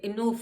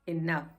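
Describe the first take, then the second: First: The second vowel is an 'oo' sound. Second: The second vowel is an 'uh' sound. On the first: The speaker calls it wrong. "ये इनूफ नहीं होगा" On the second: The speaker calls it right. "ये होगा इनफ"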